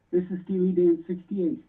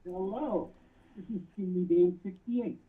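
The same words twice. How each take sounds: First: Louder and clearer, speaking up. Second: Muffled. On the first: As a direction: repeat it louder for the caller. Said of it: "Can you speak up?". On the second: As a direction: hand over mouth on the phone. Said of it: "you're kinda muffled". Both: Real, not acted.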